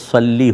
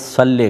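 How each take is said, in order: First: The word ends in a long 'ee' vowel. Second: The word ends in a long 'ay' vowel. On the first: This is the Arabic way of saying it. "अगर आप Arabic accent के अंदर पढ़ना चाहेंगे तो सल्ली होता है" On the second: This is the common local way of saying it. "मजहूल जो लहजा है वो तो सल्ले का है"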